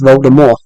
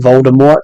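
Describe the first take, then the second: First: The name ends without a T sound. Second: The name ends with a clear T sound. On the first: The speaker calls it right. "the T's silent, so it's actually should be pronounced Voldemort" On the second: The speaker calls it wrong. "they got it wrong ... officially you have to call it Voldemort now"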